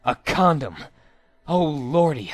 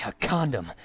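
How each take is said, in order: First: A louder, thrilled gasp of discovery; excited discovery. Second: Said in the usual way. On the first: A narrator's reading. Minjo spots the condom in her pocket, thrilled exclamation. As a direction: blurt out the find with a jolt.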